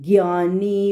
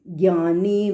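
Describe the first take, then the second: No difference in how they are said.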